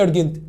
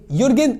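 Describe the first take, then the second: First: The word begins with a plain vowel sound. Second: The word begins with a y sound. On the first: The speaker calls it right. "ارجنت اللي هو مستعجل" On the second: The speaker calls it wrong. "يورجنت ولا ارجنت؟"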